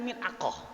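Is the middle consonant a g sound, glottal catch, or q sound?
q sound. The middle consonant is a deep q sound. This is the standard form. "Kita kan belajar mil'aqah"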